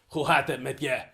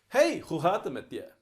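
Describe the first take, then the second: First: It is said in a sad tone. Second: It is said in a cheerful tone.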